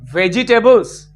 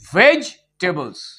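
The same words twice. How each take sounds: First: The second 'e' is pronounced as a syllable. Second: The second 'e' is silent and dropped. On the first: The speaker calls it wrong. "the pronunciation is not vegetables" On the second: The speaker calls it right. "The pronunciation should be vegetables. E will remain silent"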